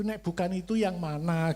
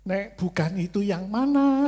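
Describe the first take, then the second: First: Said in the usual way. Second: Louder, higher frustrated plea; exasperated loud retort. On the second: Retold or imitated. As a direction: mock-desperate demand for an answer. (protes keras yang kesal, agak tinggi) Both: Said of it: "Lah maksud saya itu".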